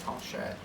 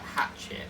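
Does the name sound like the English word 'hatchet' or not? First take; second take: unlike hatchet; like hatchet. First: It does not sound like the word hatchet. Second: It sounds like the English word hatchet. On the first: The speaker calls it right. "It's Harchette" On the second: The speaker calls it wrong. "people will go like hatchet, and it sounds awful"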